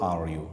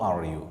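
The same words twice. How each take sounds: No difference in how they are said.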